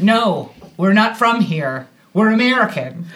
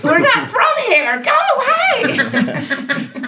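First: Firm, measured retold answer; contained, emphatic brush-off; restrained refusal. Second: Very high hammed-up yell, last words stretched; comic shriek breaking into laughter; mock scream. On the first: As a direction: state it plainly without screaming. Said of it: "But what we did do". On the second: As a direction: screech to chase a stranger off. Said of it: "don't think we screamed".

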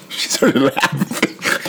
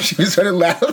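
First: Breathy whisper, slow, giggly; whispered aside. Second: Much higher gleeful squeal; squealed repeat. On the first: Hushed to co-host about the laughing manager, slow whisper. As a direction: whisper it slowly, barely holding back a laugh. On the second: To co-host, delighted the manager laughed, high squeal. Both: Real, not acted. Reporting the prank call reaction.

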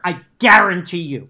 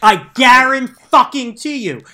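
First: GUARANTEE punched louder; insist, hitting GUARANTEE once; stress on guarantee. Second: GUARANTEE drawn out slowly, high and loud; emphatic insistence. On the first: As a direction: lean firmly on "guarantee". First take, insisting on prediction. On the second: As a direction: hammer "guarantee" syllable by syllable, much louder. Repeats prediction with escalated insistence. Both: Real, not acted.

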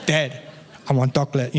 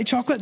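First: "chocolate" said "doclet", imitating a small boy; low baby-talk plea, "chocolate" starting with a d; toddler pronunciation. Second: Said in the usual way. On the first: Son begging dad at bedtime, "chocolate" said as toddler "doclet". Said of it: "That's how he says it". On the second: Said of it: "that's not how I say".

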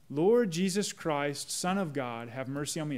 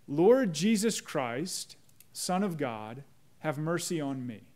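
First: Slow prayer, fading. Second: Slow, reverent recitation; slow prayer. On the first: Pastor repeats the prayer for the congregation, slow and hushed. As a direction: let it sink into a hush. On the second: Pastor shows the congregation how the prayer goes, slow and reverent. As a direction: pray it slowly, weighing each word. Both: Shown as a demonstration. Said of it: "The Jesus prayer goes like this".

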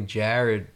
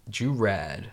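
First: Said in the usual way. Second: "Jurad", a playful twist on the name Jared; nickname pronunciation. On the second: Shown as a demonstration. Naming his training buddy by nickname, "Jurad" for Jared. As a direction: say "Jurad" as a pet version of Jared. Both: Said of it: "That's what I call him".

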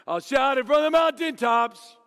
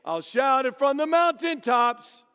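First: Shouted song line. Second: Sung slowly and loud, like a campfire chorus; sung, lead the campfire song with feeling; singing camp song. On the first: Youth minister belting the song at camp, loud shouted singing. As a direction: belt it out loud and high. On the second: Youth minister leading campers, singing slow and loud. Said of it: "So we sang it again". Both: Retold or imitated.

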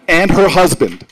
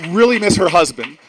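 First: "her" punched loud in "and her husband"; stress on her. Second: "really" hit loud at the start of "really miss her husband"; stress on really. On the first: Speaker joking to the crowd that he misses Obama's wife, loud stress on "her". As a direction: lean hard on "her" in "and her husband", then let it land. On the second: Speaker milking the joke about Obama to the crowd, loud stress on "really". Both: Pretend.

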